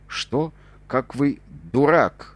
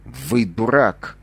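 First: Slow, indignant yell; shout again. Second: Slow, stretched angry shout; sudden shout. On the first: Narrator yelling back at the captain, slow indignant shout. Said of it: "снова крикнул я". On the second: Narrator shouting at the captain in sudden anger, slow shout. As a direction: bark it out, suddenly furious. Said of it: "вдруг крикнул я". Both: A narrator's reading.

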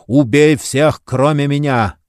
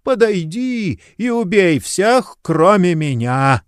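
First: Властный приказ. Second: Старческий приказ. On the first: Кугель приказывает демону. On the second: Старик Слей приказывает демону. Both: A narrator's reading.

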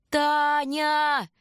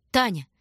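First: Higher, drawn-out shout of the name; urgent long call. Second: A short call of her name. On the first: Shurka calling his frozen sister again, urgent long call. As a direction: call her desperately across the snow. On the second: Shurka calling his sister, calling out. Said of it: "звал Шурка". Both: A narrator's reading.

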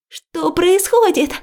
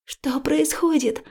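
First: High, loud, drawn-out cry; startled as the water bursts in; frightened cry. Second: Said in the usual way. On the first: A narrator's reading. Liya crying out as water floods the ward, frightened. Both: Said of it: "испуганно вскрикиваю".

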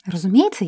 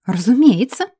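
First: Said in the usual way. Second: Louder, emphatic «Разумеется!»; loud agreement. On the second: Acted. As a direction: proclaim «Разумеется!» for the crowd. (громко и с нажимом «Разумеется!»)

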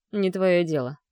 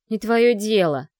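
First: Curt. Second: Loud, slow, spiteful hiss. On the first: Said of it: "отрезал Марк". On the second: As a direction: spit it out in spite. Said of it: "прошипела Ада". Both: A narrator's reading.

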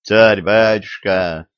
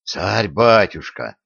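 First: Pleading. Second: Said in the usual way. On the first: A narrator's reading. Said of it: "взмолился царский сплетник".

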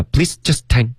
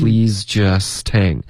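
First: "please just hang" chopped word by word; "please just hang" with stiff separate syllables; wrong choppy version. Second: "Please just hang" very slow and linked; "Please just hang" flowing, no word-by-word breaks; correct smooth version. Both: Shown as a demonstration. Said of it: "不要".

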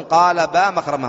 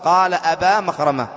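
First: قال با مخرمة with the hamza dropped, "با" said as a bare ba; با said as one syllable, ba; short form با. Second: قال أبا مخرمة with the full "أبا", the opening a sounded; أبا said in full as a-ba with its hamza; full form أبا. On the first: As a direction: say "با" as a clipped ba with no opening a. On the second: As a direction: give "أبا" both syllables, a-ba. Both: Shown as a demonstration. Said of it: "هو كان أصله".

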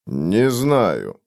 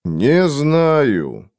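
First: Said in the usual way. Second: Mildly stubborn refusal, a little higher than the first answer; упрямое бормотание. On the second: A narrator's reading. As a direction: dig in slightly on the repeated denial. (упрямо, с лёгким нажимом) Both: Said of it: "упрямо пробормотал Фойл".

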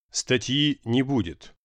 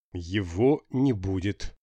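First: Blurting it out slowly, flat; blurted out. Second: Slow, stubborn refusal; stubbornly. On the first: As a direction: drop it bluntly without warning. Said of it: "бухнул без подготовки Дима". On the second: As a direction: dig in and refuse slowly. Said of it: "упрямо повторил репортёр". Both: A narrator's reading.

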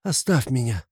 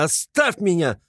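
First: Tired repeat. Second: High, pained shout of leave me; higher first cry of leave me; anguished cry. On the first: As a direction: say it again, drained. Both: A narrator's reading. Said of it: "вскричал он вдруг в судорожной тоске".

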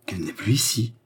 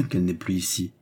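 First: Disbelieving question, rising at the end; mildly alarmed echo of his words; appalled echo. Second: Firm assertion. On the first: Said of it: "s'écria Jeanne épouvantée". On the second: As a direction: state it as a known fact. Cagliostro asserts, Jeanne echoes it. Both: A narrator's reading.

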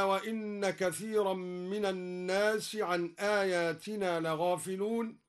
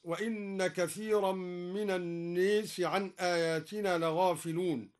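First: Said in the usual way. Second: الناس with the long a leaned toward e, naes; imala on an-nas. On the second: Shown as a demonstration. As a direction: tilt the alif of الناس toward e. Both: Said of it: "بإمالة الناس".

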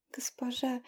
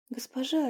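First: Soft breathy whisper of "Госпожа". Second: Said in the usual way. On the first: A narrator's reading. Tearful innkeeper whispers "Госпожа" to the witch. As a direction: whisper "Госпожа" through tears.

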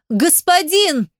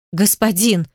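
First: High, alarmed cry to a master; anguished yell. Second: Understated anxious call; agitated breaking voice. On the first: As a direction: cry «Господин» out, pitched far higher. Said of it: "Ты рванул к нему с воплем". (отчаянный вопль высоким голосом) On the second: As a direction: call «Господин» with a touch of agitation. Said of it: "срывающимся от волнения голосом окликнул ты". (сдержанно-взволнованный оклик) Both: A narrator's reading.

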